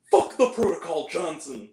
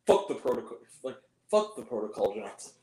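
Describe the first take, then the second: First: Imitated action-movie order, fading at the end; mock heroic defiance. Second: Low imitation, fading very soft; underplay the defiance, low and dropping away; understated movie line. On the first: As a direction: defy the rules like a movie hero, in mockery. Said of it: "No, actually," he's like". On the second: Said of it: "More like that".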